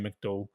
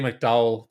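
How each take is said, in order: First: It is said with a Northern Irish accent. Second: It is said with an American twang.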